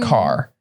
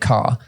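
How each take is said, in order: First: It is said in a generic American accent. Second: It is said in an English accent. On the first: "if you went generic American accent, they'd say" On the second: "in England we say car"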